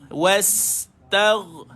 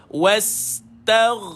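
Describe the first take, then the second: The two takes are said the same way.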